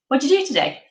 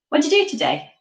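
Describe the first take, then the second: No difference in how they are said.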